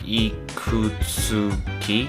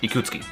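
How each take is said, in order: First: Every syllable of the name is pronounced fully. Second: A syllable of the name is reduced or dropped. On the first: "if you were to try to pronounce it fully" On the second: "it's easier to say"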